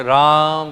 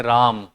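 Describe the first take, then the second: First: Raam, stretched and called out. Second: Said in the usual way. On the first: Shown as a demonstration. Teacher shows how a plutा vowel is called out, louder. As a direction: call the name louder, as if to someone far off. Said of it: "चिल्ला करके बोलना है". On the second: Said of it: "simply आपने बोला राम".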